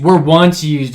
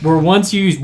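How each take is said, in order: First: "Were" punched, the rest of "Were once used" falling away; stress on were. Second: "once" stressed, "were once used" read with a falling tune. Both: Shown as a demonstration. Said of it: "Does that mean it's no longer used?".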